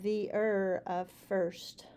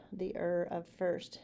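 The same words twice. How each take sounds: First: Whispering the er of first; whispered. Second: Said in the usual way. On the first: Shown as a demonstration.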